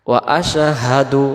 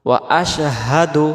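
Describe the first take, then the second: The two takes are said the same way.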